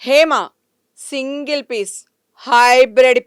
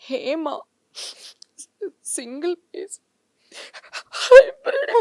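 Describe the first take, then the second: First: It is said in an angry, fierce tone. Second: It is said in a crying, tearful voice. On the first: "అదే కోపంతో" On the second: "ఏడుపుతో"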